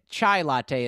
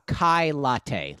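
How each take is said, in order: First: The first word starts with a ch sound. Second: The first word starts with a k sound. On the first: This is the usual way to say it. The speaker calls it right. "is the more common pronunciation of that drink" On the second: This is how some customers said it. The speaker calls it wrong. "People would sometimes they would ask for a"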